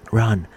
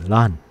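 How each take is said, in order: First: Said in the usual way. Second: "Run" starting with an L sound. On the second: Retold or imitated. Japanese friend urging him away, "Run" said with L for R. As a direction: swap the R of "Run" for L. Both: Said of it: "The R is like L".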